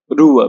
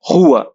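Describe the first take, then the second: First: The word begins with a rolled r sound. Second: The word begins with a breathy, h-like sound. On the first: "you can say it rua" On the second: "This one is spelled as G H, like R sound in roast"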